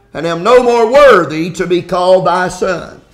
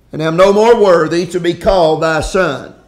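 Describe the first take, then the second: The two takes are said the same way.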